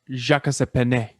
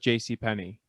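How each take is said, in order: First: The first part is said like French Jacques. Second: The first part is said as two letters.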